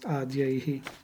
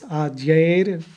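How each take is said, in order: First: The word ends with an H sound. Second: The word ends with an R sound. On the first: The word stands apart from the next word. "Just when it's broken, then becomes adyaihi" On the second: The word is joined to the next word. "the like H sound becomes a ra, like R sounds"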